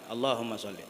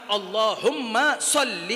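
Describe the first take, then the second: First: The l sound in sholli is short. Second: The l sound in sholli is held long. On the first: The speaker calls it wrong. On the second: The speaker calls it right.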